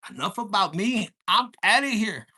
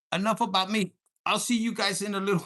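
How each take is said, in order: First: Booming mock exit, much louder; a hammed-up loud goodbye. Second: A louder, punchy wrap-up; mildly raised farewell line; loud sign-off. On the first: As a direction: bellow it like storming off stage. Acted quote, dramatic exit line. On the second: Real, not acted. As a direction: announce it like closing the show. Sign-off, repeating exit line.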